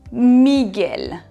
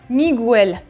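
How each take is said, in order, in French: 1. Le g passe directement au son e. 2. On entend un son u entre le g et le e. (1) "il ne faut pas prononcer le U" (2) "Il ne faut surtout pas dire Miguel"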